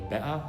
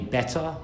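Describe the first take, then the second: First: The middle T becomes a glottal stop. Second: The middle T is clearly pronounced. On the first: "we might say better" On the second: "we don't say better"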